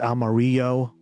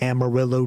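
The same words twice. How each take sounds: First: It is pronounced with Spanish sounds. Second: It is pronounced with English sounds. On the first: This is how the original Spanish word sounds. The speaker calls it right. "Totally mispronounced because it's Amarillo" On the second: This is how the locals say it. The speaker calls it wrong. "But they pronounce it Amarillo"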